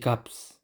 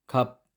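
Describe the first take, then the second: First: A final s sound is pronounced. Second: The final s sound is silent. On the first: The speaker calls it wrong. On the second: The speaker calls it right.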